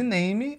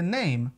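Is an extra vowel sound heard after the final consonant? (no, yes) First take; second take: yes; no. First: An extra vowel sound follows the final consonant. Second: The word ends cleanly on the final consonant. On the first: The speaker calls it wrong. "ao invés de name" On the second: The speaker calls it right. "o correto seria name"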